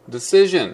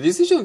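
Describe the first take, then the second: First: It is said with English-style syllables and consonants. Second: It is said with Japanese-style even syllables. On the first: The speaker calls it right. "英語っぽいけど" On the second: The speaker calls it wrong. "なんか日本語っぽいでしょ"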